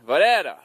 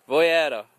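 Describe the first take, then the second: First: Voyera with a rolled Italian flourish, loud; Italian accent. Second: Said in the usual way. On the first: Shown as a demonstration. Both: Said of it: "In a very Italian accent there".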